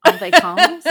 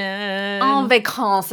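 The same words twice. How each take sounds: First: Laughing, higher and louder En vacances; bad French. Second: Slow mock French En vacances; French phrase. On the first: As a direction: En vacances tossed up as a giggly question in bad French. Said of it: "the really bad way that I learned how to speak French". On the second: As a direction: drawl En vacances with a hammed-up French accent. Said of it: "as they say in French". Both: Shown as a demonstration.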